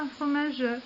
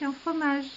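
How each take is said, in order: First: The final e of fromage is pronounced. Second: The final e of fromage is silent. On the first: The speaker calls it wrong. "et non pas" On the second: The speaker calls it right. "le E muet, lorsqu'il se trouve à la fin du vers, va s'éteindre complètement"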